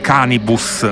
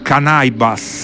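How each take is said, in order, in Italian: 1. Il nome si legge all'italiana. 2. Il nome si dice nel modo inglese originale. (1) "io dico sempre [name]" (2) "lui si chiama [name]"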